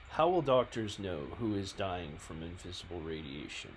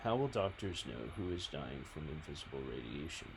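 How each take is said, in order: First: It is read in an intense, forceful way. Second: It is read in a calm, even way. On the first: The speaker calls it right. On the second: The speaker calls it wrong.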